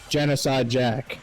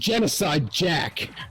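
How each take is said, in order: First: It is said flatly, without much emphasis. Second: It is said with strong, forceful emphasis.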